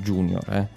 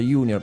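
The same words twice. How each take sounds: First: The first sound is like an English J. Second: The first sound is like a Y. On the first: This is how most people now say it. "tutti ormai in Italia pronunciano junior" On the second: This is the original Latin pronunciation. "si pronuncia junior"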